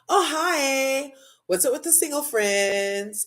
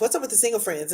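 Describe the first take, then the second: First: It is said in a light, friendly tone. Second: It is said in a snippy, edgy tone.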